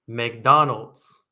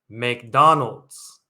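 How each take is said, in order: The two takes are said the same way.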